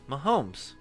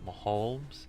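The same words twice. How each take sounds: First: The word has no L-like sound in it. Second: The word has an L-like sound in it. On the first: The speaker calls it right. "Yeah, there you go" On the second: The speaker calls it wrong. "That sounds like an L"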